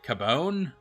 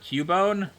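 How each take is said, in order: First: The first syllable sounds like 'cab'. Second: The first syllable sounds like 'cue'. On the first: Someone else said it this odd way. The speaker calls it wrong. "they pronounced it Cabone" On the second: This is the usual way of saying it. The speaker calls it right. "instead of Cubone"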